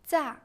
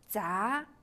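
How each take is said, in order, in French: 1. Le ton chute brusquement depuis le haut. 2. Le ton monte du milieu vers le haut.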